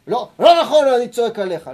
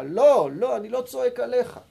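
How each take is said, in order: First: Much louder, higher, hammered "לא, לא נכון, אני צועק עליך"; shouting at a study partner. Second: Said in the usual way. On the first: Shown as a demonstration. Rabbi acts a shouter at his study partner, loud. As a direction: bark it at your partner. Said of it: "אתה שמח ממה שרשי אומר". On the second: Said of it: "אני שמח מדברי הגמרא".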